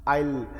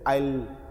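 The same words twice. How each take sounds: First: The words merge into one short syllable. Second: The same.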